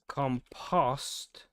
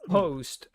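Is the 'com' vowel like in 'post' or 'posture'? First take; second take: posture; post. First: The o vowel sounds like the one in posture. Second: The o vowel sounds like the one in post. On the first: "as in posture" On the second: "as in post"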